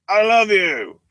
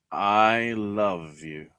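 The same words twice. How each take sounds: First: Hammed-up, high and loud "I love you"; mock loud declaration. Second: Dragged-out, slow mock "I love you"; slow mock declaration. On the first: Mocking a reality show couple, a loud high hammed "I love you". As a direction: blast it out like an overacting soap star. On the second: Mocking a reality show couple, slow drawn-out "I love you". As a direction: stretch it out like a bad soap actor. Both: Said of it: "And it's like".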